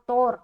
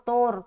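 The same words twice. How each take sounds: First: The first vowel sounds like 'o' in 'tore'. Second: The same.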